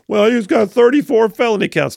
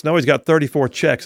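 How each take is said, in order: First: Higher, louder mocking quote of the critics. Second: Said in the usual way. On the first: Host mocking critics in a higher, louder, scornful voice. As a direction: sneer it like the other side says it.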